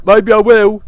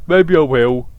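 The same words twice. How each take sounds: First: Mock bold declaration. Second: Said in the usual way. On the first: Voicing character line then repeating.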